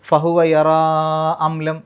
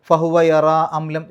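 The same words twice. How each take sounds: First: The vowel ending 'yara' is stretched out long. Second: The vowel ending 'yara' is held only briefly. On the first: "നാലോ അഞ്ചോ ഹർക്കത്തിൻ്റെ ദൈർഘ്യം വരെ" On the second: "രണ്ട് ഹർക്കത്തിൻ്റെ ദൈർഘ്യത്തിലാണെങ്കിലും"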